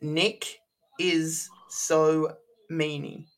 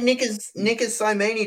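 First: The name is said slowly and carefully. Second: The name is said very fast. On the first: The speaker calls it right. "Is that better, guys? Is that how you want me to pronounce it?" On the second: The speaker calls it wrong. "I just said it really fast"

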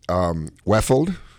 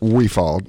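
First: The first syllable is a short 'weff'. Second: The first syllable is a long 'we'. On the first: This is how other people say the name. The speaker calls it wrong. "they pronounce it. It's funny" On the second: This is how the name is meant to be said. The speaker calls it right. "it's like we, and then I move my right hand down, falled down"

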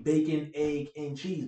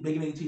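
First: It is said slowly, word by word. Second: It is said fast, run together.

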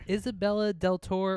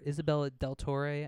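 First: The name is pronounced the plain English way. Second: The name is pronounced the Italian way.

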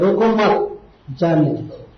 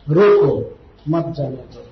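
First: The pause comes right after 'mat'. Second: The pause comes right after 'roko'.

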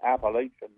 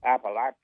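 First: It is pronounced the way outsiders say it. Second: It is pronounced the way locals say it. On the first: The speaker is not from the region. The speaker calls it wrong. "you never said the Appalachian Mountain" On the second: The speaker is from the region. The speaker calls it right. "No, no, Appalachian"

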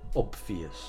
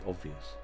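First: The b sound is clearly pronounced. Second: The b sound is left out. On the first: "do you pronounce the b" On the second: "or do you say"

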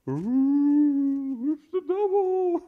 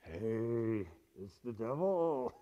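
First: It is said a little louder. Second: It is said at a quiet, normal volume.

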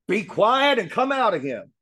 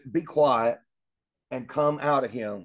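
First: The line is spoken loudly as a shout. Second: The line is spoken in a calm, quiet voice. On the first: The speaker calls it right. "Jesus shouted at him" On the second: The speaker calls it wrong. "But he didn't say it like that"

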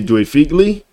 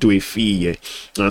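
First: The name is said more loosely, less enunciated. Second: The name is carefully and fully enunciated. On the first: "Some people say Due Figli" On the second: "you enunciate Due Figlie"

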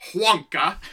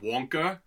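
First: An H sound is added at the start. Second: An R sound is added at the end. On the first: "with an H at the beginning" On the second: "with an R on the end"

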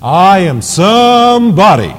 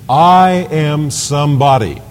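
First: It is said forcefully, with slow, drawn-out emphasis. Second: It is said plainly, at an ordinary pace. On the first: "That's how he would say it" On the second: "he didn't say it like that"

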